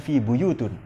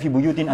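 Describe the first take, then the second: First: The word ends with an 'un' sound. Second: The word ends with an 'in' sound. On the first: The speaker calls it wrong. "tapi dibaca fi buyutun" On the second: The speaker calls it right. "Jadi tidak dibaca fi buyutin"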